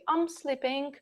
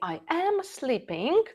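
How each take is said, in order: First: I and am are joined into one syllable. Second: I and am are said as separate words.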